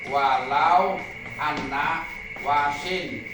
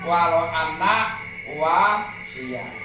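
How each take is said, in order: First: The last word ends in -in with nunation. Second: The last word ends in -iya with a vowel. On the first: This is the form used in the poem. "tapi dalam syairan" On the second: This is the regular grammatical form.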